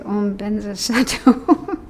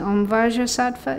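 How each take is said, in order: First: The name starts with a B sound. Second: The name starts with a V sound. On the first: This is how Tibetans recite it. "they replace it with B" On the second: This is the original Sanskrit form. "Vajrasattva is actually Sanskrit"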